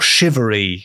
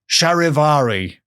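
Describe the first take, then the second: First: The word is said shortened to three syllables. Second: The word is said with four full syllables. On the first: It follows current usage. "I think it's said shivery these days" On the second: It follows the spelling. "It's spelt charivari"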